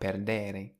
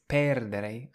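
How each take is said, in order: First: The stress is on the second syllable. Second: The stress is on the first syllable. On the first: The speaker calls it wrong. "and not perdere" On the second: The speaker calls it right. "So it's perdere"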